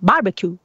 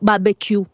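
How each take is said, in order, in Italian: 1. Si pronuncia all'inglese. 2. Si pronuncia alla francese. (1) "gli inglesi che fanno barbecue" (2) "una fonetica francese che è più barbecue"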